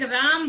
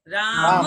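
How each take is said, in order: First: The word ends on the bare final consonant. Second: The word ends with a short final vowel. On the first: The speaker calls it wrong. "हमने अभी तक राम बोला है" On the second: The speaker calls it right. "शब्द क्या है?"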